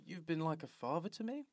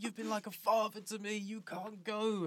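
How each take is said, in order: First: "You've been like a father to me?" softer, with a rising question tune on "me"; unsure questioning delivery; sounded like a question. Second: Sincere emotional line ending in a falling "go"; mock tender farewell. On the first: Retold or imitated. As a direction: ask it, puzzled, tune lifting on "me". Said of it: "That sounded like a question". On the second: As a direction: play it as a heartfelt goodbye. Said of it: "It was meant to be one of those scenes like".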